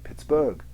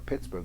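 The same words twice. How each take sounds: First: The stress is on the second syllable. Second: The stress is on the first syllable. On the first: The speaker calls it wrong. "if you try to reverse the stresses, it too sounds weird" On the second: The speaker calls it right. "strong weak"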